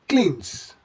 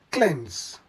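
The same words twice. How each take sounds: First: "cleanse" as kleens, long ee; mispronounced cleanse. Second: "cleanse" as klenz, short e; correct cleanse. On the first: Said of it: "This word does not come from". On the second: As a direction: say "cleanse" ending in a z sound. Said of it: "this word comes from". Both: Shown as a demonstration.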